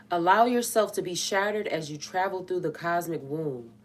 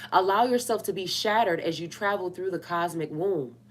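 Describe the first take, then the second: Both takes have the same delivery.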